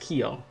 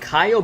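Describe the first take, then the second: First: It is said as one syllable, 'kyo'. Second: It is said with two syllables, 'ka-yo'. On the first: The speaker calls it right. "but it's Kyo" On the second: The speaker calls it wrong. "I keep saying Kayo"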